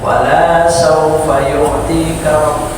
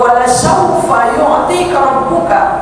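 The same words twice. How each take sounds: First: The vowel after the l is drawn out long. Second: The vowel after the l is kept short. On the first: The Lord will never be pleased with you. The speaker calls it wrong. "lam satu ini dipanjangin sama dia" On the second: The Lord will surely give you contentment. The speaker calls it right. "itu lamnya jangan panjang"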